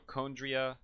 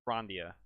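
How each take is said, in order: First: There is no R sound after the first consonant. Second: There is an R sound after the first consonant. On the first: The speaker calls it right. "So there's no R there" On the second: The speaker calls it wrong. "not Chrondia"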